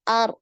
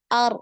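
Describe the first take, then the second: No difference in how they are said.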